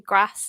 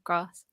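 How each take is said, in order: First: It is said in a northern English accent. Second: It is said in a southern English accent. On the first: This was the way that got teased at school. "I used to say grass" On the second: This was the way expected at school. "instead of grass"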